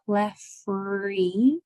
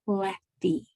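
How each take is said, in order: First: An extra R sound is inserted into the word. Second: The word is said with no R sound. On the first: The speaker calls it wrong. "It's not pleffery" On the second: The speaker calls it right. "Get the R out"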